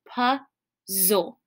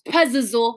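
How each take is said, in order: First: The z sound is pronounced once. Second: The z sound is pronounced twice. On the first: The speaker calls it right. "This first Z is silent" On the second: The speaker calls it wrong. "I don't make the z sound twice"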